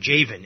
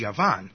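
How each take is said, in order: First: It begins with a J sound and has V. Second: It begins with a Y sound and has V. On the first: "or Javan in American pronunciation" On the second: "In Hebrew, the word for Greece is Yavan"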